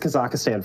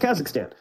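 First: The word has extra syllables added. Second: The word has its standard syllables. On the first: The speaker calls it wrong. "There's usually a few extra syllables in there" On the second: The speaker calls it right. "so we were very proud of him for getting Kazakhstan"

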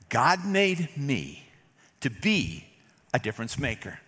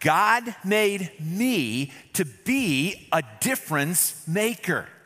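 First: It is said at normal volume. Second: It is said louder, with conviction.

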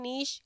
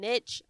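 First: The word ends in a soft 'sh' sound. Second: The word ends in a 'tch' sound. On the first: The speaker calls it right. "I say niche because there's no T in it" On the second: The speaker calls it wrong. "when I think niche, I think N-I-T. C-H"

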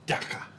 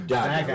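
First: The middle consonant is a throaty guttural sound. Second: The middle consonant is a hard g sound. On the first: This is how people from Cape Town say it. "he's from Cape Town, and he used to always go Dacha" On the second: This is how North Americans say it. "in North America, you see two G's together, you go Dacha"

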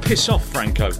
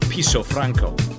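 First: The first word sounds like 'piss off'. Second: The first word sounds like 'Piso'.

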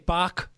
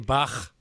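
First: The name ends in a hard k sound. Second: The name ends in a throaty ch sound. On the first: This is the usual English approximation. The speaker calls it wrong. "So people say Bach" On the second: This uses a sound not natural to English speakers. The speaker calls it right. "They don't say Bach"

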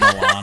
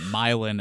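First: It is said with the usual standard pronunciation. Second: It is said with the local Illinois pronunciation. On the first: It names the Italian city. "Instead of Milan" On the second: It names the Illinois town. "There's a Milan, Illinois"

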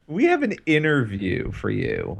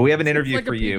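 First: It is said slowly in a creepy voice. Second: It is said at a normal pace and voice.

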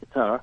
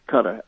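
First: Qatar is pronounced in a non-American way. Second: Qatar is pronounced in the American way.

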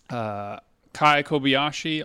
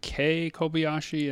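First: The first name rhymes with eye. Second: The first name rhymes with day. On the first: The speaker calls it wrong. "I've been saying Kai Kobayashi all this time" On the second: The speaker calls it right. "but it's actually Kay Kobayashi"

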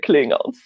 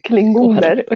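First: The word ends with an English -s plural. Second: The word ends with a Swedish -er plural. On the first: The speaker calls it right. "alla coola säger klingons" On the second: The speaker calls it wrong. "Några säger klingoner. Det låter så sjukt lame"

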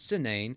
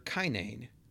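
First: The name begins with an S sound. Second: The name begins with a hard K sound. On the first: The speaker calls it wrong. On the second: The speaker calls it right.

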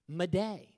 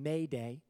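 First: The word is pronounced with French sounds. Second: The word is pronounced with English sounds. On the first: "it comes from a French term" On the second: "it's the English pronunciation"

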